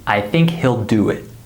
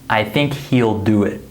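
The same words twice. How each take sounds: First: He'll has a short I vowel, like hill. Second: He'll has a long E vowel, like heel. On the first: The speaker calls it right. "I would say" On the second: The speaker calls it wrong. "I wouldn't say"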